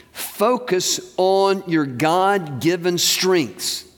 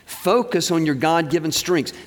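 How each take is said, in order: First: Slow, each word weighted; slow emphatic stress. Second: Said in the usual way. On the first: Shown as a demonstration. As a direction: drive the phrase home slowly.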